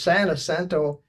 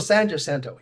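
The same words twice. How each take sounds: First: The name is said with Spanish pronunciation. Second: The name is said with English pronunciation. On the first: "in my very best uh, California Spanish" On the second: "they pronounced things differently"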